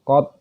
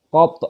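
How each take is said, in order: First: The final consonant ends with a slight bounce. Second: The final consonant ends with a strong bounce. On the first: "Kalau sugro nggak usah terlalu dipantulkan" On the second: "Jadi ada pantulannya"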